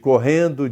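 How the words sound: The -ndo ending is fully pronounced. "Em vez de correndo"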